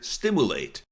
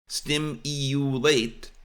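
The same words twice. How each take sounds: First: The u is said with no y sound. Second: A y sound comes before the u. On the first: This is the way outside America. "Outside the U S, quite often we hear stimulate. That is because it is pronounced as spelled" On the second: This is the American way. "U S pronunciation of stimulate"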